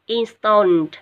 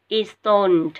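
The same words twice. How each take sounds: First: Installed with the ending ED said as a T sound; loud Installed, final ED spoken as T. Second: Installed again with the ED ending said as a T; loud model Installed with a T at the end. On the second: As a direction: repeat Installed, ending on a T sound. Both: Shown as a demonstration. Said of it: "E D ở đây mình sẽ đọc là chữ T ở cuối".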